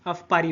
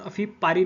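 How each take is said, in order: First: The first word ends without a final vowel. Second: The first word ends with an 'ee' vowel. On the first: The speaker calls it right. "अफ पारी होगा" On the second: The speaker calls it wrong. "अफी पारी नहीं"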